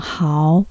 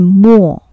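First: The syllable is pronounced háo. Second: The syllable is pronounced mò. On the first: "又念豪" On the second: "或者念墨"

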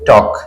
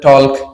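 First: It has an O vowel and no L. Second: It has an O vowel and an L. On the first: The speaker calls it right. "এল এর উচ্চারণ হবে না, এটা হবে টক" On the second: The speaker calls it wrong. "কেউ বলেন টলক"

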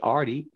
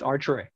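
First: There is no R sound after the T. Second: There is an R sound after the T. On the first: The speaker calls it wrong. "You miss letters in the name. It ain't Artie" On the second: The speaker calls it right. "It's another R in it"

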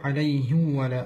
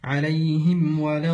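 First: The m sound merges into the following w. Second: The m sound is clearly heard before the w. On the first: The speaker calls it wrong. "إدغام الميم في الواو" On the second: The speaker calls it right. "أن تكون الميم ظاهرة"

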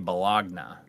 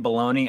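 First: The word is said the way it is spelled. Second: The word is said the common, everyday way. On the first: "I say Bologna" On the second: "you say baloney"

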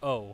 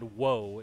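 First: It is a bare o vowel. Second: It starts with a w sound. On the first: The speaker calls it right. "it's O" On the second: The speaker calls it wrong. "it's not woe"

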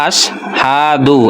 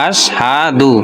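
No difference in how they are said.

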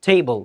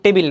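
First: No clear vowel comes before the final 'l'. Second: A clear 'i' vowel comes before the final 'l'. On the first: The speaker calls it right. "এটা হবে কি টেবল" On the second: The speaker calls it wrong. "এটা কিন্তু টেবিল না"

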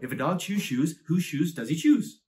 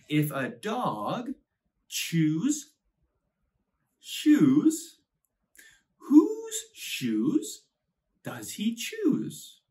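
First: The sentence is said fast. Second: The sentence is said slowly. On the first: "shall we say it fast, fast, fast, fast, fast?" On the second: "let's read it nice and slow"

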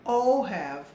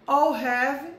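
First: The first two words merge into one syllable. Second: The first two words merge into one syllable.

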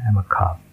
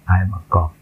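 First: The c has a strong puff of air. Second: The c has no puff of air. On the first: The speaker calls it right. "Lebih terasa seperti native speaker kalau kita letupkan yang tadi" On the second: The speaker calls it wrong. "Bedakan dengan kalau kita membacanya tanpa letupan"

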